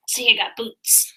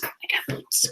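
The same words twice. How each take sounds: First: Said in the usual way. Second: Hushed boast; whisper. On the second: Acted. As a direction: whisper it proudly. Whispered boots reveal.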